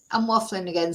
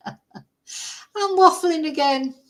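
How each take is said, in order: First: Said in the usual way. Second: High, drawn-out mock wail; playful self-mockery. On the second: Vlogger catching herself waffling to viewers, playful self-mockery. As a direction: stretch it out high in comic exasperation. Mock lament at own rambling.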